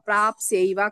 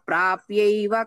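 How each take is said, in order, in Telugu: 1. y ముందు s ధ్వని వస్తుంది. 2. y ముందు s ధ్వని రాదు. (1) "ప్రాప్స్యైవ కాదు" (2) "మామ ప్రాప్యైవ కౌంతేయ"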